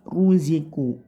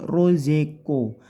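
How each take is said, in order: First: The vowels are clear u and i. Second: The vowels lean toward o and e. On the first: The speaker calls it right. "yang bagus ruziku, u dan i, u lagi" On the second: The speaker calls it wrong. "hati-hati bukan rozeko, tidak miring ke o, tidak miring ke e"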